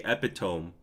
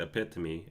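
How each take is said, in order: First: Epitome said EP-i-tome, rhyming with home; the mispronounced epitome, EP-i-tome; old wrong way. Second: Epitome said eh-PIT-uh-mee, four syllables; the corrected epitome, eh-PIT-uh-mee; right way. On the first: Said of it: "I used to say epitome". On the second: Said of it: "I'm upgraded to epitome". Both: Shown as a demonstration.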